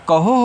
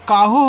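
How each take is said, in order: First: The first vowel is short, like 'a'. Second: The first vowel is long, like 'aa'. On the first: The speaker calls it right. "ए को silent कर लें" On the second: The speaker calls it wrong. "ए से आ का मात्रा"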